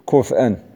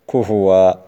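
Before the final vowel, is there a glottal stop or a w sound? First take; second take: glottal stop; w sound. First: The glottal stop is kept after a silent f. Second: A w sound replaces the glottal stop. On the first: This is another reciter's reading. "بسكون الفاء والهمز باقي" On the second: This is one reciter's reading. "وكذلك كفوء في الإخلاص كفوا"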